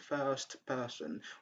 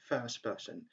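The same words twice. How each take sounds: First: The final t of first is pronounced. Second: The final t of first is dropped. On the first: The speaker calls it wrong. "Instead of saying the first person" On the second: The speaker calls it right. "we just say first person. We drop t at the end"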